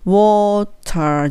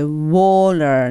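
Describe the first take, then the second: First: The middle consonant is a crisp t sound. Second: The middle consonant is a soft l-like flap. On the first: The speaker calls it wrong. "water じゃなくて" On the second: The speaker calls it right. "water にした方が英語っぽいです"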